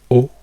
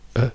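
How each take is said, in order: First: It starts with an open, rounded 'oh' sound. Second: It starts neutral and unrounded, then glides round. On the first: "in americano vanno giù ... loro vanno giù per il primo suono" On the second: "noi partiamo da zero labbra, zero niente e andiamo fuori"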